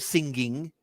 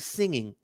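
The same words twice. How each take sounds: First: A hard G sound follows the ng. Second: No hard G sound follows the ng. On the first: The speaker calls it wrong. "You don't say singing. Nobody says that" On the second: The speaker calls it right. "You say singing"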